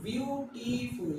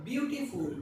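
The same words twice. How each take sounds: First: "বিউটিফুল" slowly split into three beats, bew-ti-ful; syllable by syllable. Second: Said in the usual way. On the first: Shown as a demonstration. Teacher showing the syllable count, "বিউটিফুল" slowly in three steps. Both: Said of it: "তিন ধাপে উচ্চারণ করছি".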